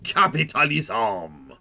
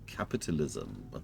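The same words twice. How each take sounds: First: It is said in an exaggerated French accent. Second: It is said in a British manner with a pause. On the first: "some guy with a really outrageously French accent" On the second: "Or you can have like a British pause"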